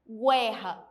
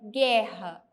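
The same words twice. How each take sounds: First: A 'w' sound is heard after the g. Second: No 'w' sound is heard after the g. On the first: The speaker calls it wrong. "Senão ficaria guerra, guerra. E não é assim que se pronuncia" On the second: The speaker calls it right. "É guerra"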